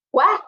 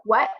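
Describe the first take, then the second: First: Confused what. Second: Said in the usual way. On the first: Retold or imitated. Asked again louder.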